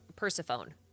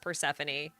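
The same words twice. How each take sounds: First: The final E is silent. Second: The final E is sounded. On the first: The speaker calls it wrong. "I straight up thought her name was" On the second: The speaker calls it right. "I had to relearn her name as"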